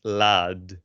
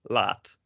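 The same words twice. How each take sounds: First: Laad with an overemphasized d; exaggerated voiced d closing "laad"; voiced final D. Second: Laat ending in a crisp T; "laat", final sound unvoiced like t; devoiced final D. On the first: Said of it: "it's not pronounced". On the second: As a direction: say "laat" with a voiceless t at the end. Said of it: "pronounced exactly the same". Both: Shown as a demonstration.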